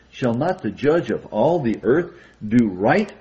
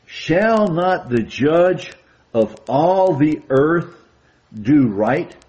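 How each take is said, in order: First: Said in the usual way. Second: Slow, weighty, louder quote; solemn emphatic reading. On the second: Shown as a demonstration. Preacher stressing key verse for the brethren, solemn and slow. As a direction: lean on each phrase like a proclamation. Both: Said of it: "Notice what it says".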